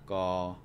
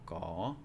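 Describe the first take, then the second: First: The syllable has a flat tone. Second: The syllable has a rising tone. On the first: "by themselves are a flat tone" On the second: "to make it a rising tone"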